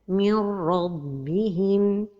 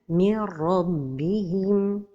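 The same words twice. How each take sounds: First: The merged sound is nasalized. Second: The merged sound has no nasalization. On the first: The speaker calls it wrong. "The mistake is to pronounce it idgham with ghunna" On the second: The speaker calls it right. "the idgham is without ghunna"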